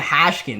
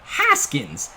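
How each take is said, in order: First: The name has an sh sound. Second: The name has a plain s sound. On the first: The speaker calls it wrong. "I keep on calling him Hashkins. I don't know why I think the H is there" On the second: The speaker calls it right. "Let me make sure I pronounce that one correctly"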